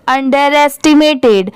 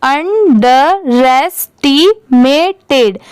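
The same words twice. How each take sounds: First: Said in the usual way. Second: अंडरएस्टिमेटेड very slowly, अन-ड-रेस-टी-मे-टेड; teacher's drawn-out, segmented अंडरएस्टिमेटेड; syllable by syllable. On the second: Shown as a demonstration. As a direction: pause between all parts of अंडरएस्टिमेटेड. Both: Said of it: "अब पूरा मिला देंगे".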